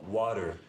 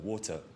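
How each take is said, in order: First: It is said in an American accent. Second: It is said in a British accent. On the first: The listener understood it. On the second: The listener did not understand it.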